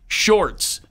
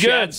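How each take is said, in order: First: The name is said as Shorts. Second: The name is said as Schatz. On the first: The speaker calls it wrong. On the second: The speaker calls it right.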